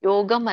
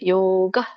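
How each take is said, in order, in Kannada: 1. ಈ ಪದ ಕೊನೆಯಲ್ಲಿ m ಶಬ್ದದೊಂದಿಗೆ ಮುಗಿಯುತ್ತದೆ. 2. ಈ ಪದ ಕೊನೆಯಲ್ಲಿ m ಶಬ್ದ ಇಲ್ಲದೆ ಮುಗಿಯುತ್ತದೆ. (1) "ಯೋಗಂ ಅಲ್ಲ" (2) "ಇಲ್ಲಿ ಅನುಸ್ವಾರ ಇಲ್ಲ"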